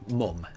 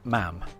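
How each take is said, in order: First: The vowel is like the one in cut. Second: The vowel is like the one in cat. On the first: This is how northern England says it. "where I grew up, uh, which is um, in northern um, part of of England. Um, we say mum" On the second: This is how the Newcastle area says it. "around the Newcastle area, uh, you would have people pronouncing it mam"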